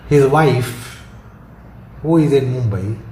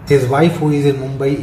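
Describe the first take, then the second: First: The phrase is said with a marked pause. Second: The phrase is said without the marked pause. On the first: He has several wives, and the one in Mumbai is ill. "I taken a pause" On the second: He has only one wife, and she is in Mumbai. "You get the meaning that his wife, who is in Mumbai, is ill"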